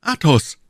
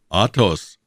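First: Higher, louder startled call; surprised cry. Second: The captain echoes it, stunned; repeated name. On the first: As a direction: call out his name in shock. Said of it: "riefen die zwei Musketiere". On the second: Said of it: "wiederholte Herr von Trevet". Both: A narrator's reading.

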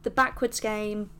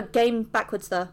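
First: Said in the usual way. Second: Words in reverse order, said quickly; backwards speech. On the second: Shown as a demonstration. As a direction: read it back to front, playfully.

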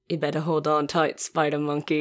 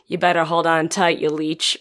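First: Movie line quote. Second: Ridiculous movie line parody. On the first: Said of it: "Vampire Sucks version of". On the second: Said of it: "something ridiculous like". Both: Retold or imitated.

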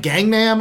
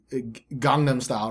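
First: "Gangnam" as gang-nam with flat American a, higher; "Gangnam" with a hard g and flat American a vowels; American mispronunciation. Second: "Gangnam Style" with a soft Korean "Gangnam", open ah vowels, slow; Korean pronunciation. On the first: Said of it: "the weirdest vocalizations of that word". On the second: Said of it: "you can put more Korean emphasis on that". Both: Shown as a demonstration.

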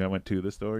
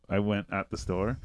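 First: Light stress on "to"; corrected wording. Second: Light stress on "at"; quoted wrong wording. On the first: Shown as a demonstration. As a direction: give the correction, leaning on "to". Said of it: "He's like". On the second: Retold or imitated. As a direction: quote the slip, leaning slightly on "at". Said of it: "he would say".

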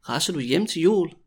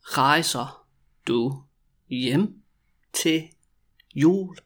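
First: Said in the usual way. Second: Drawn-out question with gaps between words; very slow, word by word. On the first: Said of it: "when you also say it quickly". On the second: Shown as a demonstration. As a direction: dictate each word separately. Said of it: "when I say it really slowly".

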